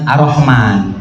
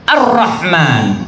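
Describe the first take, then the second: First: The r sound is single and short. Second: The r sound is doubled and held longer. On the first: The speaker calls it wrong. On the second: The speaker calls it right. "Harus ada tasdidnya"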